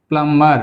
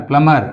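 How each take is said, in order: No difference in how they are said.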